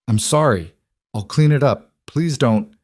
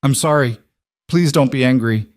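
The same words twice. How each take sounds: First: Thin, pleading, a little higher; thin frightened voice. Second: Trembling voice. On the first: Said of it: "Her voice came out thin, higher than she intended". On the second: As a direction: voice trembling, high and pleading. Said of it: "a trembling voice". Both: A narrator's reading.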